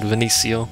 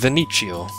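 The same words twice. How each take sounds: First: The middle consonant is a soft S sound. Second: The middle consonant is not a soft S.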